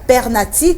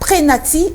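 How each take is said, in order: First: It has an R sound, said per-na-ti. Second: It has an R sound, said pré-na-ti. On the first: "ou encore pernati comme le disent certaines personnes" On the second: "Ce n'est donc pas prénati"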